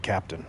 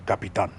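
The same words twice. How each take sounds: First: Said in the usual way. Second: Capitan said kah-pee-TAHN with a rolled, Spanish flavour; Spanish-style Capitan. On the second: Shown as a demonstration. Streamer dubbing himself a Spanish-style captain, Capitan said kah-pee-TAHN. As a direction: say Capitan like a Latin American sea captain, stressing the last syllable.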